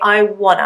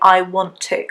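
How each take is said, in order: First: The words run together into a reduced form. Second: Every word is said fully and separately. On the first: "When we're speaking fast, we would say" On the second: "It's really rare that you would hear an English person say"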